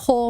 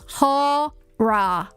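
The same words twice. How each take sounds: First: The word is squeezed into about one syllable. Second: The word is said with two clear syllables. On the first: The speaker calls it wrong. "at least I don't say I'm going to watch a horror movie" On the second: The speaker calls it right. "Two syllables"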